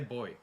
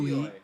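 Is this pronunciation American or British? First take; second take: British; American. First: It is said the British way. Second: It is said the American way. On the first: The speaker calls it right. "I say boy" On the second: The speaker calls it wrong. "have you ever realised how Americans pronounce boy? They say"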